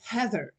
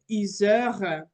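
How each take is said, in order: First: The name is said with an English accent. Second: The name is said with a French accent. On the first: This is her real name. "alors qu'elle est Heather" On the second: French speakers call her this. "j'ai une collègue qui s'appelle Heather"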